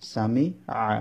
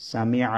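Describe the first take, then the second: First: সামিআ split, a pause before the final আ; syllable by syllable. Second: Said in the usual way. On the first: Shown as a demonstration. Teacher showing learners how the letters join, syllable by syllable. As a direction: break সামিআ into its parts.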